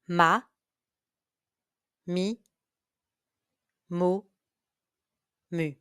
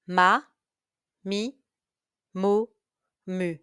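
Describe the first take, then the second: First: The syllables are said at a moderate pace. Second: The syllables are said at a fast pace. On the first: "Listen and repeat" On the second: "Faster now"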